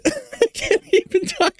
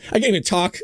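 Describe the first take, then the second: First: High, breaking up with real laughter; laughing helplessly. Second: Said in the usual way. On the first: Real, not acted. Host to viewers, cracking up over the clip: real helpless laughter. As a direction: squeeze it out through laughter. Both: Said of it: "I'm just laughing so hard".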